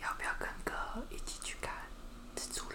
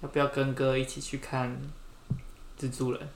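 First: It is said softly, almost whispered. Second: It is said at normal volume.

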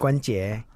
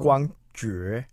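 First: The first syllable ends in n, sounding guan jie. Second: The first syllable ends in ng, sounding guang jue. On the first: This is how most people say the name. The speaker calls it wrong. "大家要念成关节" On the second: This is the real name. The speaker calls it right. "你本名叫做"

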